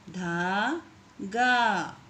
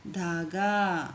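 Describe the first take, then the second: First: धागा stretched very slowly, syllable by syllable. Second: Said in the usual way. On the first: Shown as a demonstration. Teacher to pupils, sounding out धागा very slowly. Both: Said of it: "इस तरीके से आपको शब्दों को पढ़ना है".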